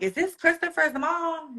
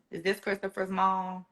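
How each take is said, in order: First: A touch higher, a light voice for the caller; brisk caller voice. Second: Softer, hushed caller asking the same question; shaky, hushed caller. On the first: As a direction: lightly voice the calling lady, asking. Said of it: "the lady's like". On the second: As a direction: hush it like bad news is coming. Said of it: "Her voice is shaking". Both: Retold or imitated.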